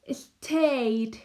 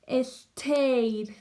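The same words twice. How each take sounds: Both takes have the same delivery.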